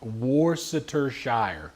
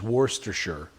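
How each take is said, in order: First: The word is said slowly and fully. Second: The word is said quickly and run together.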